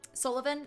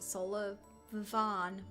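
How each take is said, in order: First: The last syllable is a short 'vin'. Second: The last syllable is a long 'vawn'. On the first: The speaker calls it right. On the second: The speaker calls it wrong. "Vaughn instead of Vin"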